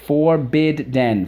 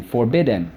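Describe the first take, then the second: First: "forbidden" slow, in three beats, FOR, BID, DEN; higher, carefully separated syllables on "forbidden". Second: Said in the usual way. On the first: Shown as a demonstration. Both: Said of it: "So let's go".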